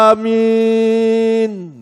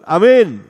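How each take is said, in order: First: The vowel is drawn out long. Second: The vowel is kept short. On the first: The speaker calls it right. "Itu dengan mad panjang" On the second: The speaker calls it wrong. "Bukan amin. Bukan. Jahil itu"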